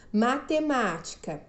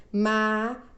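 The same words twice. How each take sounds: First: Said in the usual way. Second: "matemática" as ma, te, má, ti, ca with long gaps; syllable by syllable. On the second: Shown as a demonstration. Teacher showing five syllables, "matemática" said syllable by syllable. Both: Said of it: "Que tem cinco sílabas".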